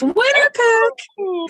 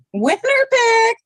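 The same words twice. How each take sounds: First: High excited cry of winner pick; excited shout. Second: High, slow, drawn-out cheer; excited shout. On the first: Player hyping her pick to the group, high and excited. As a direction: announce it with glee, pitch way up. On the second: Player repeating her pick announcement, slower and excited. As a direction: stretch it out, sing-song and thrilled. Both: Real, not acted.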